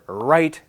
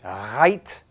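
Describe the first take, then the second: First: It is said with a plain English R. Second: It is said with a French-accented R.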